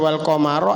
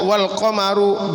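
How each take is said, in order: First: The final word ends with an 'a' vowel. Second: The final word ends with a 'u' vowel. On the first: The word is in the accusative case. "alamat nasabnya wal qamaro adalah... fathah" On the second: The word is in the nominative case. "dibaca wal qamaru birraf'i, kelawan rafa"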